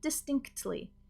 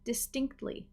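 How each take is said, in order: First: The second T is clearly pronounced. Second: The second T is faded and almost skipped. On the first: "if you want to pronounce the T" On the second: "that T might start to fade ... I almost kind of skip over it"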